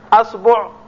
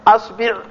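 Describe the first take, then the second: First: The vowel after the b is u. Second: The vowel after the b is i. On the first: "بضم الباء" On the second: "بكسر الباء"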